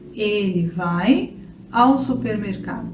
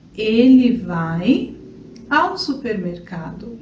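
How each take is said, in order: The two takes are said the same way.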